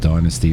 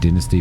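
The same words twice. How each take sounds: First: Dynasty is said the American way. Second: Dynasty is said the speaker's local way. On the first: This is how Americans say it. "in America you pronounce it dynasty" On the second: This is how people say it where the speaker lives. "I'm saying dynasty because that's how we pronounce it here"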